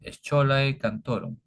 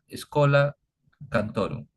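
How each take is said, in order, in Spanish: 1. La primera palabra se lee como está escrita, 'scholae'. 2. La primera palabra se dice 'escola'. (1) "aquí puede uno leer como scholae" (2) "pero se pronuncia en latín escola"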